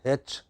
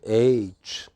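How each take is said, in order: First: The letter is said with a South Indian pronunciation. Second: The letter is said with a standard pronunciation. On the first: The speaker calls it wrong. "Many South Indian traffic controllers pronounce it as H" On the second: The speaker calls it right. "It is neither H nor H. What is it? It is H"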